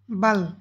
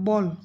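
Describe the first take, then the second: First: The vowel is an open ah sound. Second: The vowel is a rounded aw sound. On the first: This is the German pronunciation. "কিন্তু এখানে হবে বাল" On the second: This is the English pronunciation. "ইংরেজিতে বল"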